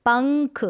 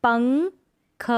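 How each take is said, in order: First: Said in the usual way. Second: पंख stretched very slow, syllable by syllable; slow syllable split. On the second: Shown as a demonstration. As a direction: draw out पंख slowly for the class. (पंख को बहुत धीरे तोड़कर) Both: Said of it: "पढ़ने का अभ्यास करेंगे".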